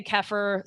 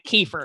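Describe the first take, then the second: First: "kefir" said as KEFF-er; short e, first syllable stressed in "kefir"; alternative pronunciation. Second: "kefir" said as KEE-fer; long ee in the first syllable of "kefir"; Texas pronunciation. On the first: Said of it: "I've heard it pronounced so many different ways". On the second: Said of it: "but my Texas accent, I'm calling it kefir". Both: Shown as a demonstration.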